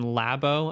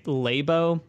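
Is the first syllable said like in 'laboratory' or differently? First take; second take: laboratory; differently. First: The first syllable sounds like 'lab' in laboratory. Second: The first syllable does not sound like 'lab'. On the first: The speaker calls it right. "like laboratory, as if you were going to continue" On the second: The speaker calls it wrong. "Pat Gill continues to say Labo. I think he's wrong"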